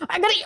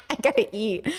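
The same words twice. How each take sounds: First: Higher, pressing; insistent higher take; urgent repeat. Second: Softer, to herself; murmured reminder to self; soft aside. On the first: Streamer telling chat she must eat, higher and urgent. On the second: Streamer to herself, ending stream, softly. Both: Real, not acted.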